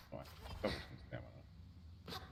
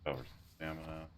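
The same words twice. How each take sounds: First: Breathy whisper to self. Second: Said in the usual way. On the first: Shown as a demonstration. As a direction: whisper it under your breath. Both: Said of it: "repeats the words more softly".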